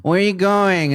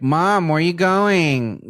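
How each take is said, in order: First: Put-on higher, louder pestering child; nagging kid. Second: Put-on slow, higher whiny kid voice; nagging kid. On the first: Kid pestering mom on her way out, high whine. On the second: Kid nagging mom as she leaves, slow whine. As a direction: drag it out like a pestering child. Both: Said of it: "we'd be like".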